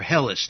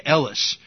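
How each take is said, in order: First: Hellas with a sounded H; English pronunciation. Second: Elis with no H at the start; Greek pronunciation. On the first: Teacher giving the English form of the name, Hellas with an H. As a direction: say Hellas with the H at the start. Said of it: "We pronounce it Hellas in English". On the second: Teacher giving the Greeks' name for their land, Elis without an H. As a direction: drop the H, open Elis on the vowel. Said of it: "they don't have the H sound". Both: Shown as a demonstration.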